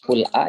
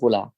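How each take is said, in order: First: A glottal catch separates the l from the vowel. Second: The l runs straight into the following vowel. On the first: "memindahkan harokat hamzah ke harokat sukun yang sebelumnya" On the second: "Qul'a jadi qula"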